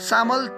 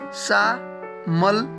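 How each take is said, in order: First: The word is said smoothly as one unit. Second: The word is broken apart by syllables.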